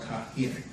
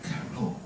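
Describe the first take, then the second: First: The name is said as 'Kahir'. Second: The name is said as 'Cairo'. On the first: This is the city's own name. The speaker calls it right. "It's actually called Kahir" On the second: This is the form used by outsiders. The speaker calls it wrong. "not Cairo"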